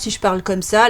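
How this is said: It is a deep, big-bad-wolf voice.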